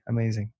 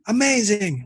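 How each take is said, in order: First: It is said without real feeling, half-heartedly. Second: It is said with sincere, genuine feeling.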